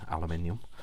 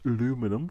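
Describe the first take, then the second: First: It is said the British way. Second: It is said the non-British way. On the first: "in the U K, I we say aluminium" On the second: "depending on where you are in the world"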